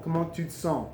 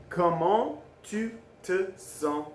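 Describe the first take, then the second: First: Said in the usual way. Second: "Comment tu te sens" slowly, a pause between words; very slow, separated "Comment... tu... te... sens"; word-by-word demo. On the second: Shown as a demonstration. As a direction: model "Comment tu te sens" one word at a time. Teacher models phrase word by word.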